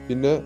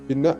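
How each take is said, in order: The two takes are said the same way.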